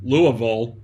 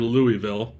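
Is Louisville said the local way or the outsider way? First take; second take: local; outsider. First: It is said with a local, reduced pronunciation. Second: It is said with a non-local, outsider pronunciation. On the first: The speaker calls it right. "if you're from that area, you'd pronounce it Louisville" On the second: The speaker calls it wrong. "I didn't pronounce it right"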